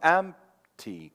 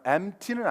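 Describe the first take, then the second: First: The p is held silently, keeping its beat. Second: The p is skipped with no beat. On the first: The speaker calls it right. "P 사운드를 안 내고 박자만 있는 거예요" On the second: The speaker calls it wrong. "empty는 아니에요"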